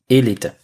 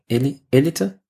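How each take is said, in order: First: The stress is on the first syllable. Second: The stress is on a later syllable. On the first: "das erste E wird betont, weil da ist auch ein Akzent drauf, also wahrscheinlich Elite" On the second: "Oder Elite?"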